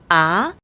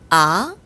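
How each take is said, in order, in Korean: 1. 음이 낮은 데서 높은 데로 빠르게 올라간다. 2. 음이 낮은 데서 높은 데로 빠르게 올라간다.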